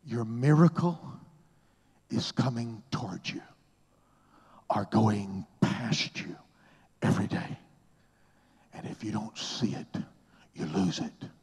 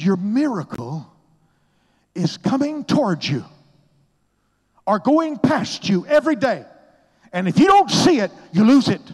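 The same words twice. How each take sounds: First: Said in the usual way. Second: Much higher and louder, ringing out; emphatic repeat. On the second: Retold or imitated. Oral Roberts repeats his words, booming and high. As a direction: proclaim it like a mentor insisting. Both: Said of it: "Say that again".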